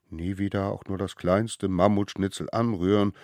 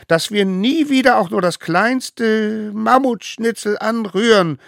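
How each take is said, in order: First: Said in the usual way. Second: High, loud solemn call; leading an oath. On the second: A narrator's reading. Smallest one calling the oath. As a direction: proclaim each word.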